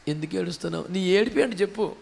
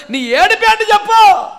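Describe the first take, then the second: First: Soft, low question to someone crying; hushed, low inquiry; gentle questioning. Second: High, raised-voice demand; urgent preacher's cry; insistent demand. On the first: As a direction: ask it quietly, well under the voice. Gently voicing the question to weeper. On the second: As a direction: build to a loud, pressing question. Question repeated as a climax. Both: Acted.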